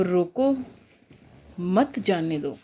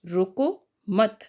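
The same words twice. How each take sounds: First: रोको alone, a long pause, then मत जाने दो; pause after रोको. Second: रोको मत said slowly as one unit, then a stop; pause after मत. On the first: Teacher showing students where the comma falls, long pause after रोको. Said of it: "के बाद लगा है". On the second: Teacher reading the third comma placement to students, रोको मत grouped together. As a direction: join "रोको" to "मत" unhurriedly and break after "मत". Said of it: "इसमें लिखा है". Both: Shown as a demonstration.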